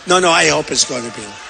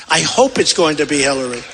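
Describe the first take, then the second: First: Emphatic repeat. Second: Said in the usual way. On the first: Retold or imitated. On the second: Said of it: "her people told me".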